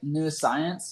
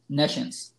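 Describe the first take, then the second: First: It begins with 'new', like two words. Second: It begins with 'ness', as one word. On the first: The speaker calls it wrong. "it makes you want to pounce it like new science" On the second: The speaker calls it right. "but it's actually nescience"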